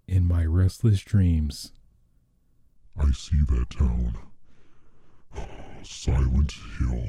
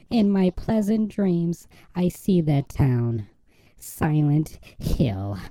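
First: It is said in a man's aggressive voice. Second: It is said in a put-on woman's voice.

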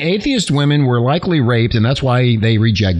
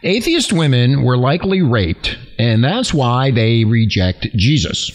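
First: The sentence is spoken at a normal, quicker pace. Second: The sentence is spoken at a slower pace.

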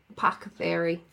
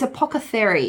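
First: The word is said in an American accent. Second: The word is said in a British accent.

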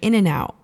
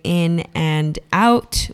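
First: The t sound is dropped. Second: The t sound is clearly pronounced. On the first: "Californians don't pronounce their T's" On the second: "if you want to say in and out"

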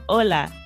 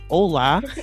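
First: The L is short and quick, Spanish-like. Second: The L is long and relaxed, American-like.

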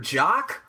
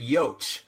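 First: The name begins with a J sound. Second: The name begins with a Y sound. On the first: "Is it Peter Jock" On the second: "or is it Yoach?"

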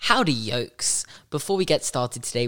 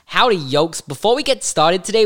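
First: It is said in his normal voice. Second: It is said in a silly put-on voice.

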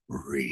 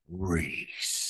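First: The name is said in a plain way. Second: The name is said in a sexy, seductive way.

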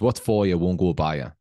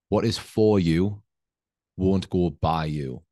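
First: It is spoken in a Northeast English accent. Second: It is spoken in a neutral, plain accent. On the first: "this is in a Northeast accent" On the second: "Let me translate"

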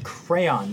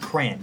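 First: It is said with two syllables, cray-on. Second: It is said as one syllable, like cran. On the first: The speaker calls it right. "Crayon has a Y-O in it. It is crayon" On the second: The speaker calls it wrong. "not crayon"

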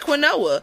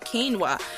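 First: It is said as spelled, kwin-oh-ah. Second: It is said the standard way, keen-wah. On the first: "it's spelled like quinoa" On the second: "let me say it correctly"

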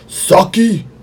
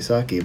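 First: It is said with lively passion. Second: It is said flatly, without passion.

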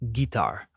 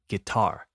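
First: The stress is on the first syllable. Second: The stress is on the second syllable. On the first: The speaker calls it wrong. "I hear guitar a lot, but that's not how we say it" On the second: The speaker calls it right. "We say guitar with the emphasis on the second syllable"

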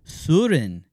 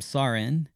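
First: The name is said with a rounded Scandinavian vowel. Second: The name is said with a plain English vowel.

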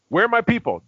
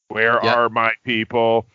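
First: The line is said with a theatrical, affected delivery. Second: The line is said flatly, with a plain delivery. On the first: "You said it with like an affectation" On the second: "I'll try to say it as straight"

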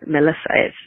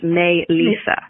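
First: The name begins with a short, weak 'muh' sound. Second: The name begins with a full 'may' sound. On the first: The speaker calls it wrong. "her name is not Melissa" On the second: The speaker calls it right.

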